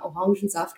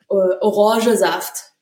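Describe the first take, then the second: First: The n before saft is clearly pronounced. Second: The n before saft is dropped. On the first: This is how standard speakers say it. "mit Hochdeutsch aufgewachsen" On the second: This is how local dialect speakers say it. "nicht Orangesaft"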